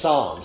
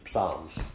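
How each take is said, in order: First: The word starts with no P sound. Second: The word starts with a P sound. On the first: This is how English speakers say it. "We say psalms" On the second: This is how Greek speakers say it. "to the Greek, it's psalms. They put them all together"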